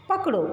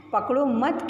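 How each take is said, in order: First: पकड़ो alone, high, then a stop; high standalone पकड़ो with a break; pause after पकड़ो. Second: पकड़ो मत together, rising, then stop; पकड़ो मत as one unit with a pause following; pause after मत. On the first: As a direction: cut off after पकड़ो before going on. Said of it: "विराम लेने के बाद". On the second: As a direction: join मत to पकड़ो and break after it. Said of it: "के बाद हमने विराम लिया". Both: Shown as a demonstration.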